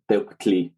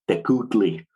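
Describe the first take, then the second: First: The k is lip-rounded, with no extra vowel. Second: A full u vowel follows the k sound. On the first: The speaker calls it right. "that U represents just lip rounding on the K" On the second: The speaker calls it wrong. "pronounce that as Tecutli ... It has a whole extra syllable"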